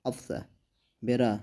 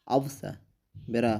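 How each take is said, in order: Both takes have the same delivery.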